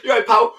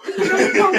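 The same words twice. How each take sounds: First: Higher, louder mock Scouse pal; jokey Scouse greeting, pitched up; Scouse accent. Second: Much higher, squeaky mock Scouse pal; Scouse accent. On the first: Joining the teasing, in a put-on Scouse accent. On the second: Topping the joke, in a shrill Scouse accent. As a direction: push the Scouse voice up even higher. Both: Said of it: "I don't wanna sound like a Scouser".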